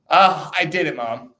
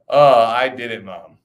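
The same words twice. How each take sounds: First: Higher, louder mock boast to Mom; mock triumph. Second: Mock triumph. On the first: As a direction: playfully cry out to Mom, ending in a laugh. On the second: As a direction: playfully announce it to Mom, falling away. Mock boast to Mom, repeated.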